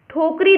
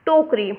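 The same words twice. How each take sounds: First: ठोकरी said with an aspirated ठ, "thhokri"; misspelt form read out. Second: टोकरी said with a plain unaspirated ट, "tokri"; correct form. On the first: Teacher reads the misspelt word to students, aspirated ठ. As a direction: read out ठोकरी with a breathy, aspirated first sound. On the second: Teacher gives students the correct spelling, plain unaspirated ट. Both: Shown as a demonstration. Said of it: "उसका सही होगा".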